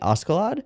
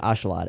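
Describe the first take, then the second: First: The name is said with its original pronunciation. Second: The name is said the way Japanese actors say it. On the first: "the correct pronunciation would be Ascalad" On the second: "the Japanese V As are saying Ashalad"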